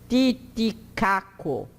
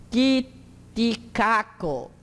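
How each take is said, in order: No difference in how they are said.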